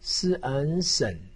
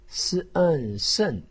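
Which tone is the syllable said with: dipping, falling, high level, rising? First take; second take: dipping; falling. First: The pitch dips low, then rises. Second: The pitch falls sharply from high. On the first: "三声" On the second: "四声"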